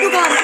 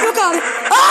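First: Said in the usual way. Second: Panicked yell of refusal; scared shout. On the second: Real, not acted. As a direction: yell it, terrified. Panics at monster in game. (korkuyla bağırarak)

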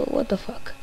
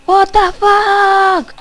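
First: Softer, under the breath; muttered disbelief. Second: Loud, drawn-out, slow stunned cry; shocked outburst. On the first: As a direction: say it to yourself quietly. Repeats reaction under breath. (incredulidad en voz baja) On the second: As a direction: yell it out in disbelief. Shocked reaction while gaming. (grito de sorpresa lento y fuerte) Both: Real, not acted.

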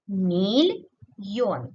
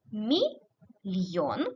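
First: "мільйон" slowly broken as міль, pause, йон; split for hyphenation. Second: "мільйон" slowly broken as мі, pause, льйон; split for hyphenation. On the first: Teacher showing the other line-break division, slow split syllables. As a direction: break "мільйон" after a long міль, then йон alone. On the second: Teacher showing one line-break division, slow split syllables. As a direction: break "мільйон" straight after мі, keeping льйон together. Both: Shown as a demonstration. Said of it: "по-різному для переносу".

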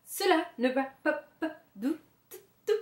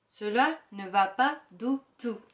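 First: Quick, higher, trembling words fading off; shivering, teeth chattering. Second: Said in the usual way. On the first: A narrator's reading. Frozen wolf at the mirror, shivering fast and breaking off. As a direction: rush it out while shivering. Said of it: "En claquant les dents".

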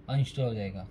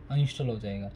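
No difference in how they are said.

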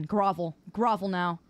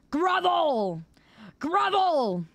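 First: Low, imperious order; low-pitched haughty demand; mock command. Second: High, drawn-out demand; pitched-up theatrical order; mock tyrannical command. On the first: Demands groveling apology, low first. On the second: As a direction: cry it out imperiously. Demands groveling apology, escalating.

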